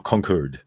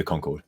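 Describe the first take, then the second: First: "Concord" with a reduced "curd" ending; alternative pronunciation. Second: "Concord" with a full "cord" ending; variant pronunciation. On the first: Offering viewers the other reading, "Concord" ending like curd. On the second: Naming the game area to viewers, "Concord" ending like cord. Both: Shown as a demonstration. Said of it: "depending on how you say that".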